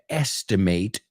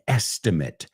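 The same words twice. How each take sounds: First: It is pronounced in its verb form. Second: It is pronounced in its noun form. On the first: It is used as a verb. "The verb is" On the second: It is used as a noun. "if you use it as a noun"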